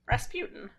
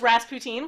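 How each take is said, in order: First: The name is said in the standard way. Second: The name is said as in the song. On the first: The speaker realized this is the actual name. The speaker calls it right. "and then I was like, oh, [name]" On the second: The speaker wrongly believed this was the name. The speaker calls it wrong. "that song where they pronounce it Rasputin. So I thought his name was Rasputin"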